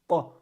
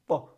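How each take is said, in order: No difference in how they are said.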